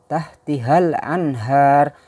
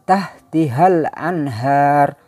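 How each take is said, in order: No difference in how they are said.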